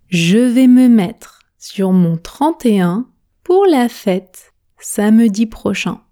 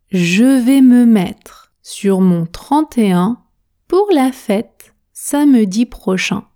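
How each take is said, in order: Both takes have the same delivery.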